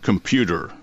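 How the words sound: The T sounds like D, with a final R. The speaker calls it wrong. "the pronunciation used was computer. Now, there's three mistakes there"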